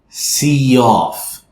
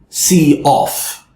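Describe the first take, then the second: First: The words are linked by an added 'y' sound. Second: The words are separate, with no added sound. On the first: The speaker calls it right. "We want to link these together... I added a yeah sound" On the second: The speaker calls it wrong. "we don't want to say see off"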